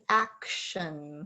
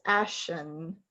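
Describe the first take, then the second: First: Every sound in the word is said. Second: One sound in the word is skipped. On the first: The speaker calls it right. "it should be" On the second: The speaker calls it wrong. "sometimes you skip sounds ... what I heard was"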